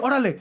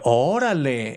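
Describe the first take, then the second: First: It is said quickly, in a hurried tone. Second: It is said in an amazed, impressed tone. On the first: The speaker tells someone to hurry up. "like quick" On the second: The speaker is impressed. "it could be like, wow, or amazing"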